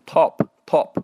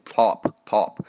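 First: British "top" with a rounded, small-mouth o; British accent. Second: Slow American "top", vowel opened wide; exaggerated American accent. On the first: Teacher shows how the British read it, British accent. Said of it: "英国人可能会读". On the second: Teacher shows the exaggerated version, American accent with wide vowel. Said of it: "美国人会读比较夸张的那种". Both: Shown as a demonstration.

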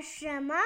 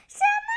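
First: Said in the usual way. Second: High, loud cry of disbelief; startled shout. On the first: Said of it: "怪兽说". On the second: Acted. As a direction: shout it sharply upward as an astonished grandpa. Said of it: "爷爷喊道". (吃惊地高声喊叫)

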